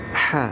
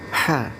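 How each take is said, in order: Both takes have the same delivery.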